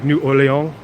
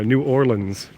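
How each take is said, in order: First: The name is said in a French style. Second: The name ends like the word 'lens'. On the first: This follows the original French. "like the French version" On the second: This is how locals say it. "like like the lens of a camera"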